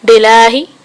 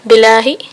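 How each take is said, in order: Both takes have the same delivery.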